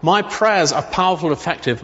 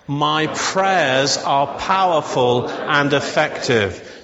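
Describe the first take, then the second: First: Said in the usual way. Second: Slow declaration. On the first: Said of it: "All right?". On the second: Shown as a demonstration. Pastor leading the church in a slow, deliberate declaration. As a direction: say it slowly, every word weighed. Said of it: "So shall we say that together?".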